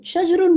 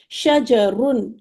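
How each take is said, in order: First: شجرن run together as shaj-run, no vowel after the j; wrong pronunciation. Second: شجرن said very slowly as sha-ja-run, every syllable clear; correct pronunciation. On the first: Teacher showing students the wrong Urdu-style شجرن, squeezed as shaj-run. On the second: Teacher modelling the right Arabic شجرن for students, slow sha-ja-run. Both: Shown as a demonstration. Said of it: "شجرن نہیں کہیں گے".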